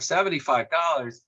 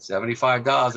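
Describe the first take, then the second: First: "Seventy-five dollars?" echoed higher, in disbelief; surprised echo. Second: Said in the usual way. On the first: Retold or imitated. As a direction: repeat the price back as if it's outrageous. Davenport echoes the price in disbelief.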